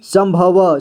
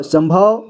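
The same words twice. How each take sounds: First: संभव as सं-भ-व, final vowel voiced; spelled-out reading. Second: Said in the usual way. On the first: Shown as a demonstration. Teacher showing learners how to read, sounded out as सं-भ-व. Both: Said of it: "इसे क्या पढ़ेंगे?".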